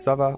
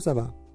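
First: The pitch rises at the end, like a question. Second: The pitch falls at the end, like an answer. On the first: It asks how someone is doing. "so it can be both a question and an answer" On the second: It says that things are fine. "You can also just answer it"

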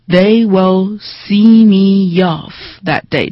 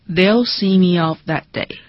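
First: The sentence is spoken slowly and exaggerated. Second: The sentence is spoken at natural conversational speed.

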